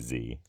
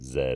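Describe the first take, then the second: First: The letter name is said the American way. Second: The letter name is said the British way. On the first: "in the United States, you say Z" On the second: "if you're in the United Kingdom"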